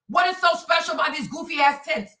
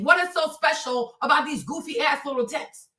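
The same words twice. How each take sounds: First: Said in the usual way. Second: Light take on a Trump rally voice, barely changed from her own; a hint of Trump as he mocks something; Trump impression. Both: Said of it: "let me do my little Trump thing".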